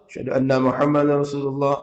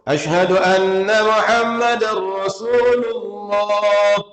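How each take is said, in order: First: It is said quietly, to oneself. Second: It is said loudly, out aloud.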